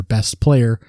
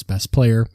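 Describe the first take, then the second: First: Said in the usual way. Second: "best player" said with a sarcastic, mocking lilt; sarcastic air quotes. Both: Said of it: "air quotes".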